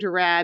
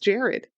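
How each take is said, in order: First: The name is said as Gerard. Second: The name is said as Jared. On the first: This is how the spelling reads. The speaker calls it wrong. "I keep hearing Gerard in my head because that's how it's literally fucking spelled" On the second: This is how the person is actually called. The speaker calls it right. "But it's just Jared"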